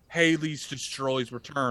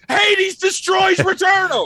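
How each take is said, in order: First: It is said flatly, with little energy. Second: It is said loudly, with high energy.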